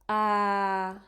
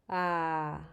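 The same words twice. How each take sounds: First: The pitch stays level at a middle height. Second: The pitch is low, like a sigh. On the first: "that's middle" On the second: "Low, sighing"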